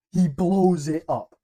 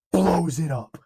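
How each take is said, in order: First: Slow, loud, high and awed; a fan savouring the big moment out loud; awed exclamation. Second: Louder and higher, thrilled; excited. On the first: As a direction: let it land slowly, amazed. Repeats the hero's explosion for emphasis. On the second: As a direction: hype it up like the big moment. Hype retelling of the hero's explosion. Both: Acted.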